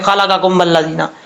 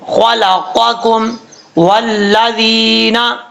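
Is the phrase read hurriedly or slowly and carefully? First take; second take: hurriedly; carefully. First: It is read quickly, rushing over the qaf. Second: It is read slowly, articulating the qaf carefully. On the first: The speaker calls it wrong. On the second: The speaker calls it right.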